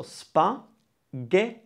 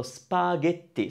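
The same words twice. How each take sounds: First: "spaghetti" very slowly as spa, ghet, ti; syllable by syllable. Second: Said in the usual way. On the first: Shown as a demonstration. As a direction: break "spaghetti" into three separate beats. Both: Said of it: "Three syllables".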